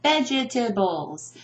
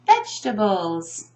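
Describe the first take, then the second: First: "vegetables" as vej-eh-tuh-bulls, four syllables; "vegetables" with every E spoken, learner's mistake; mispronounced with extra syllable. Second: "vegetables" as VEJ-tuh-bulls, middle E dropped; "vegetables" in three beats, standard way; three syllables. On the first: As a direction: sound the silent second E in "vegetables". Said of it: "I often hear". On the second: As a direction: say "vegetables" without the second E. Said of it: "I do not underline the E because it's not spoken". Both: Shown as a demonstration.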